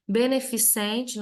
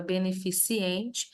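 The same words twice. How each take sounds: First: "beneficente" said slowly, ending -cente with no extra i; correct pronunciation. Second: "beneficiente" with an extra i before the final -ente; mistaken pronunciation. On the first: Teacher warning students of a common error, careful correct "beneficente". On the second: Teacher citing a word that does not exist, mispronounced "beneficiente". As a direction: slip an i in, ending "beneficiente" in -ciente. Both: Shown as a demonstration. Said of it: "não existe a palavra beneficiente".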